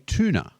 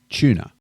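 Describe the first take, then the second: First: It begins with a plain t sound. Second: It begins with a ch sound, like chew. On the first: "Americans say tuna" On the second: "we pronounce it like a chew"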